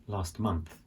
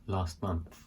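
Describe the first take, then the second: Both takes have the same delivery.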